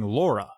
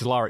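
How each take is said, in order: First: The first vowel is a rounded 'aw' sound. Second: The first vowel is an open 'ah' sound. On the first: The speaker calls it wrong. "You keep saying Laura" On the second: The speaker calls it right. "It's Lara"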